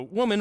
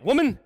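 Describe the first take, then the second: First: Said in the usual way. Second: Loud, sharp address. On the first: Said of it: "That's not how it was spoken". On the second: Acted. Peter rounds on the servant girl with a loud "Woman,". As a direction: bark out "Woman," high and loud, like a put-down. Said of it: "that word woman when that's spoken like that".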